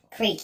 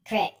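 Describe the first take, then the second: First: Said in the usual way. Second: "Crick" with a short i, rhyming with brick; dialect pronunciation. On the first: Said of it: "I call it a creek". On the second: Shown as a demonstration. Reading the regional word for creek, dialect pronunciation. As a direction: say "Crick" with a short clipped vowel. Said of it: "I ain't never called it a crick before".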